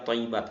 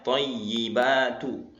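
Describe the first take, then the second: First: The word ends on a bare t sound. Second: The word ends with a final u vowel. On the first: The speaker calls it wrong. "mensukunkan huruf ya, thay dibaca thayyibat" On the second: The speaker calls it right. "harusnya thayyibatu"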